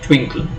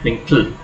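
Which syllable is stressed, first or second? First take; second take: first; second. First: The stress is on the first syllable. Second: The stress is on the second syllable. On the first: The speaker calls it right. "we emphasize the first syllable. We say twinkle" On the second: The speaker calls it wrong. "not twinkle"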